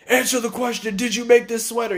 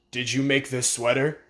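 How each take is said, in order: First: Higher, raised demand; mock yell. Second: Said in the usual way. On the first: Surgeon yelling at the girl over the sweater, mock yell. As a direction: bark the question at her. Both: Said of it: "He's all yelling and shit".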